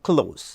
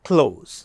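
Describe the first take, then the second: No difference in how they are said.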